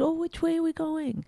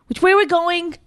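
First: It is said in a friendly, pleasant tone. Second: It is said in a curt, unfriendly tone.

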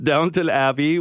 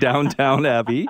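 First: The first word is said like 'Downton'. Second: The first word is said like 'downtown'. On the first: The speaker calls it right. "It's Downton Abbey" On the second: The speaker calls it wrong. "It's not Downtown Abbey"

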